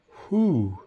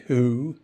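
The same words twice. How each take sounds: First: The word begins with a breathy hw sound. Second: The word begins without a breathy h sound. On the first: This is the traditional, older pronunciation. The speaker calls it right. "in my father's generation, it was" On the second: This is how nobody says it anymore in the old way. The speaker calls it wrong. "It wasn't"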